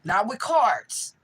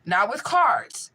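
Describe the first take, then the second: First: Slow, weighted "Not with cards" leaning on "cards"; stress on cards. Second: Slow, louder "Not with cards" pressing on "cards"; stress on cards. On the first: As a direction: drag out "Not with cards", hitting "cards". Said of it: "That's how you read". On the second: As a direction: repeat "Not with cards", slower, punching "cards". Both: Shown as a demonstration.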